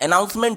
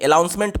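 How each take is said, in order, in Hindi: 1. पहले स्वर के बाद वाला व्यंजन N है। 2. पहले स्वर के बाद वाला व्यंजन L है। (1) "एक्चुअल वर्ड क्या होता है, अनाउंसमेंट होता है" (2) "बहुत से लोग अनाउंसमेंट को अलाउंसमेंट बोलते हैं"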